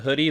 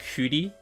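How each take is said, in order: First: It is said like the English word hoodie. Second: It is said with a Japanese-style pronunciation. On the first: "We wear hoodies, so I would assume it's called Hoodie" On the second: "they say it like Hoodie, but that's because it's Japanese"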